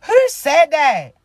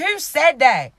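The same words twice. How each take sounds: First: Slow, louder put-on Porsche voice. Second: Said in the usual way. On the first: Shown as a demonstration. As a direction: drag it out in a mock Porsche voice. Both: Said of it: "in my Porsche voice?".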